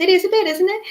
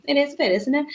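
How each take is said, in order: First: Put-on higher, louder playful Scouse accent. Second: Said in the usual way. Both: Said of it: "she says in a really Scouse accent".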